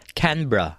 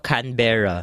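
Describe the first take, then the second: First: Canberra as Kanbra, middle vowel dropped; Canberra, short clipped -bra; correct way. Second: Canberra with full -berra; Canberra, all syllables clear; usual Filipino way. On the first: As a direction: Canberra said like a local. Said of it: "Yun pala ay". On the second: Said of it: "sinasabi natin ito". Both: Shown as a demonstration.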